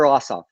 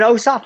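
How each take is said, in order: First: "Ossoff" opening on an open AH; short AH pronunciation. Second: "Ossoff" opening on a long OH; long O pronunciation. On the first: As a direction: say "Ossoff" as AH-soff. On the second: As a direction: say "Ossoff" as OH-soff. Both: Shown as a demonstration. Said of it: "Is it Ossoff or Ossoff?".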